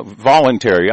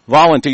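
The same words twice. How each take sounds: First: Said in the usual way. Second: Mocking repeat. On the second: Shown as a demonstration. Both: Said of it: "a fucking word they loved a lot".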